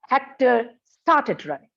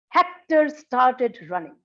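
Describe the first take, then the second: First: The pitch falls on the word started. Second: The pitch falls on the word Hector. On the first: Starting to run was not what anyone expected. "pitch is on the second word, first syllable of the second word" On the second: It was this person, not another one, who started running. "the falling pitch is on the first syllable of Hector"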